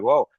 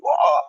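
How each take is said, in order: First: Small surprised whoa; a first, restrained show of surprise. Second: Big, high, loud mock whoa; over-exaggerated surprise. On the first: Acted. Actor giving the director a surprised look, mild surprise. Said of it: "you're surprised". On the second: Actor mocking the take directors keep, over-exaggerated surprise. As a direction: overact the shock until it looks stupid. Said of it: "I look completely stupid".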